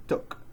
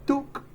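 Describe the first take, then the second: First: "took" with a short, lax oo as in book; correct short oo. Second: "Took" with a long, tense oo, pitched high; mispronounced long oo. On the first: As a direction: keep "took" low-key, with a short vowel. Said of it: "we say took". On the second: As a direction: stretch "Took" to rhyme with Luke. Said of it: "is incorrect". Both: Shown as a demonstration.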